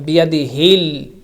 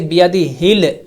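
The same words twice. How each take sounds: First: The L sound is held with the tongue. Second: The L sound is bounced off the tongue. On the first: The speaker calls it right. "don't make bouncing sound" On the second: The speaker calls it wrong. "You don't say biyadi hil hil. That's wrong"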